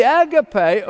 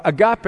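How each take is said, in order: First: "agape" said AG-uh-pay; agape, first-syllable stress. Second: "agape" said ah-GAH-pay; agape, alternative pronunciation. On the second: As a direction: stress the middle syllable of "agape": ah-GAH-pay. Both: Shown as a demonstration. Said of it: "as some pronounce it".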